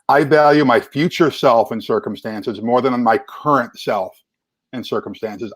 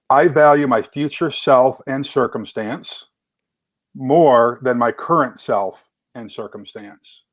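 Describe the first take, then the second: First: It is said at a normal pace. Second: It is said more slowly.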